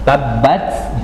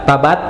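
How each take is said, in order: First: The middle b is doubled and pressed hard. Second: The middle b is short and single. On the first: The speaker calls it right. "pakai tasdid itu dihentak, ditekan" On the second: The speaker calls it wrong. "salah berarti"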